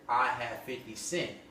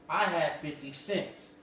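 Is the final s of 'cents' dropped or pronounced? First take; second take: dropped; pronounced. First: The final s of cents is dropped. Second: The final s of cents is pronounced. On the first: This is the home-language community form. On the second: This is the usual standard form.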